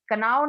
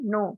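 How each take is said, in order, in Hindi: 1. शुरुआत में k की ध्वनि बोली जाती है। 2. शुरुआत में k की ध्वनि साइलेंट है। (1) "कनाव नहीं बोलते इसको" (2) "इसको पढ़ेंगे नो"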